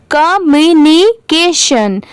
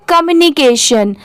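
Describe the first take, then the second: First: "communication" stretched into ka-myu-ni-ke-shan; slow syllable by syllable. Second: Said in the usual way. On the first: Shown as a demonstration. Teacher leading a repeat of a big word, "communication" very slowly by syllable. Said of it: "मेरे बाद repeat करिए". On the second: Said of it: "अब ये क्या है".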